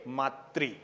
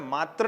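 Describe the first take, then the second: First: The word ends with an 'ri' sound. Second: The word ends with a plain 'r' sound. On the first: The speaker calls it right. "क्या बोलना चाहिए? मातृ" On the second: The speaker calls it wrong. "हमें मात्र नहीं बोलना है"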